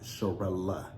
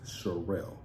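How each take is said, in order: First: The name ends with an extra 'uh' syllable. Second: The name ends without an extra syllable. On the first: The speaker calls it wrong. "my name is not Sharella" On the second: The speaker calls it right. "It is Sherelle. There's no A in Sherelle"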